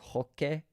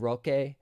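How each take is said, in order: First: The name begins with an H sound. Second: The name begins with an R sound.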